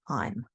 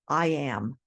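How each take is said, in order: First: The words are joined into one syllable. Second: Two separate words are said in full.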